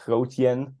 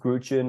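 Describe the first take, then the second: First: The name is said with a Dutch pronunciation. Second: The name is said with an English pronunciation. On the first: "or in Dutch you can say Grootjen" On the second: "in English is Grootjen"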